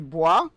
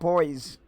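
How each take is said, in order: First: The name is said with a French sound. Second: The name is said with a plain English sound. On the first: The name comes from French. "like it's obviously French inspired" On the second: The name has no French origin. "or just boys"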